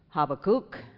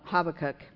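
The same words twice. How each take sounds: First: The name is said with a Hebrew pronunciation. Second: The name is said with an English pronunciation. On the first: "the true Hebrew is Habakkuk" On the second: "So I'm going to try to go with Habakkuk"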